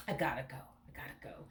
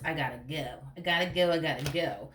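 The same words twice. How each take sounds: First: Quieter, trailing into a breathy whisper; soft mock whisper of leaving; fading to a whisper. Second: Said in the usual way. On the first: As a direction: let it die away to a whisper. Quoting the partner, fading away.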